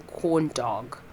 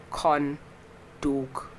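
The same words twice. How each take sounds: First: Said in the usual way. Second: "corn dog" split in two, slow, with altered vowels; mispronounced word. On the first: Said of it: "instead of saying corn dog". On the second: Shown as a demonstration. Owning up to a slip, "corn dog" slow and misshapen. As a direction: say "corn dog" slowly and wrongly, pausing between the words. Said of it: "I said corn dog".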